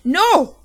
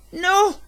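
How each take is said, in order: First: Higher and even louder desperate scream. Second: Much higher, louder terrified scream. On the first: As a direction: scream harder to stop her. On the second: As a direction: scream to stop the child. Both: A narrator's reading. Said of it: "I screamed".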